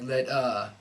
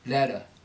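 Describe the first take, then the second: First: The final syllable is given too much weight. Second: The final syllable is light and reduced. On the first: The speaker calls it wrong. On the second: The speaker calls it right.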